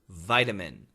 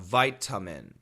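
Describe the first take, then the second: First: The middle vowel is a reduced schwa. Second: The middle vowel is a full short uh. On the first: The speaker calls it right. "We say vitamin ... That is the schwa sound" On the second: The speaker calls it wrong. "it kind of has a short U vowel sound"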